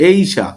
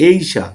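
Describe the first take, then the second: No difference in how they are said.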